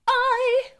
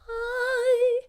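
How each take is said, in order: First: The vowel starts with a sharp glottal catch. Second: The vowel starts gently without a glottal catch. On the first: "a more glottal onset" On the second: "a more soft onset"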